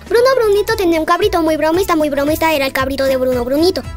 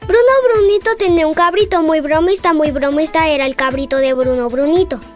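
First: It is said at a faster pace. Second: It is said at a slower pace.

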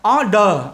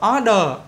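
The two takes are said the same way.

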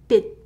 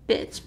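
First: The word ends with an unreleased t sound. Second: The word ends with a released ch sound. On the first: The speaker calls it right. "bit, but without t sound" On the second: The speaker calls it wrong. "you might think that it's pronounced bitch"

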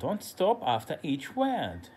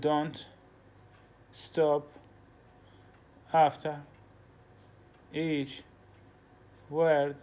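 First: It is said smoothly without pauses between words. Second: It is said with a pause after each word.

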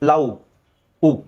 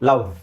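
First: The ending is a rounded-lip 'u' sound. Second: The ending is a 'v' with lower lip tucked in. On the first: The speaker calls it wrong. "ನಮ್ಮ ತುಟಿ ಆಕಾರ ಉ ಅಂತ ಬರ್ತದೆ, ಹಿಂಗೆ" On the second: The speaker calls it right. "ಈ ನಮ್ಮ ಕೆಳಗಡೆ ತುಟಿ ಒಳಗೆ ಹೋಗುತ್ತೆ"

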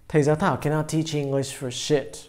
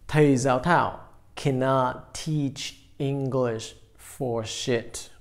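First: The sentence is spoken at normal, fluent speed. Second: The sentence is spoken slowly, word by word.

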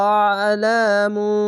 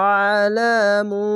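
No difference in how they are said.

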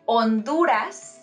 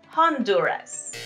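First: The first h is silent. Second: The first h is pronounced. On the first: The speaker calls it right. "Remember that letter H is silent" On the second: The speaker calls it wrong. "not Honduras"

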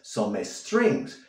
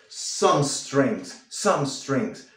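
First: An extra e vowel comes before strings. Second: The two words are linked with no vowel between. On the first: The speaker calls it wrong. "vas a colocar esa E fantasma y dirás some strings" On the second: The speaker calls it right. "simplemente une las dos palabras"

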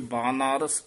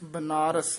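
First: The first vowel is long. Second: The first vowel is short. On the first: The speaker calls it right. "कन्ने दोवें ला के" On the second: The speaker calls it wrong. "बनारस नहीं कहना"

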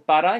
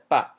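First: The word is said in full with two syllables. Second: The word is shortened to a single syllable. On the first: "he didn't say para" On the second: "he said pa"

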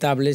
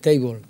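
First: It is read letter by letter, Spanish style. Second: It is pronounced with English sounds, like 'teibol'. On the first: The speaker calls it wrong. "no puedo decir table" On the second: The speaker calls it right. "si es table"

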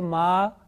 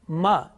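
First: The vowel is stretched out long. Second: The vowel is held for about one count. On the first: The speaker calls it wrong. "it's wrong because this is long vowels" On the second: The speaker calls it right. "is it right? Yes"

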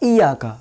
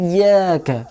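First: The y sound is short and single. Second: The y sound is held and doubled. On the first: The speaker calls it wrong. "বিনা তাসদীদে পড়লে কেমনি পড়বো ইয়াকা" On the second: The speaker calls it right. "ওখানে ইয়ায় তাসদীদ আছে"

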